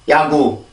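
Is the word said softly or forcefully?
softly. It is said softly, with little air. "한국어 먼저 해볼게요. … 한국어는 우리는 굉장히 부드럽게 만들어낼 수가 있는데"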